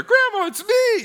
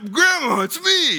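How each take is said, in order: First: Even squeakier falsetto impostor; hammed-up pleading at the very top of the voice; fake grandson voice. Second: Very high, put-on phone scammer voice; badly faked grandson, squeaky high; mock pleading in a high false voice; fake grandson voice. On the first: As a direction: push the phony grandson up into extreme falsetto. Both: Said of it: "whatever his voice sounded like".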